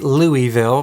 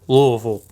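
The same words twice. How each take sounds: First: The name is said fully, the speaker's own way. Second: The name is clipped, as Kentucky locals say it.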